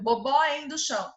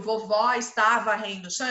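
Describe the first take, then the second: First: "Bobó endo chão" with B for V and syllables swallowed; toddler mispronunciation. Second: "Vovó está varrendo o chão" with every word fully formed; correct full pronunciation. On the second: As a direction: articulate "Vovó está varrendo o chão" as the complete adult sentence. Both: Shown as a demonstration. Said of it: "Embora ele não, não construiu".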